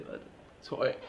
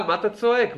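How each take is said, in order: First: Whispered mock question; מה אתה צועק? whispered with no voice; hushed repeat. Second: A raised, scoffing challenge; מה אתה צועק? asked higher and sharper; mock scolding. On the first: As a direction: drop it to a whisper, teasing. Same question repeated in a hush. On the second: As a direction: needle him for shouting. Mocking a person who shouts.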